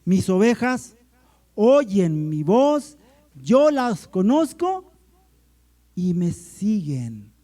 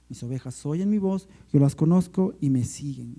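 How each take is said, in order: First: Loud, slow proclamation, phrase by phrase; emphatic scripture reading. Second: Said in the usual way. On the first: Shown as a demonstration. Pastor reading John to the church, loud and emphatic. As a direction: proclaim the verse with pauses and raised phrase ends.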